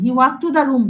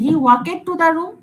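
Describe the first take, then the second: First: The verb ends in a short 't' sound. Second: The verb ends in an extra 'id' syllable. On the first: The speaker calls it right. "He ওয়াক to the room বলি" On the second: The speaker calls it wrong. "আমি কি এরকম বলি"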